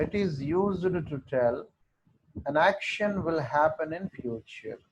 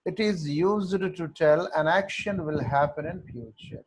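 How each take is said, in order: First: Very slow, word by word; teacher dictating to the class, very slow; slow dictation. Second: Very slow, in one run; teacher repeating the rule for note-taking, very slow; slow dictation repeat. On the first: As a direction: dictate it so students can write. Teacher dictates definition slowly. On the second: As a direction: read the whole sentence slowly for copying. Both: Shown as a demonstration.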